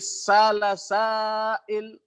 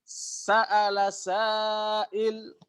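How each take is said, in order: First: The first word has a long vowel, no stop. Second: The first word has a glottal stop mid-word.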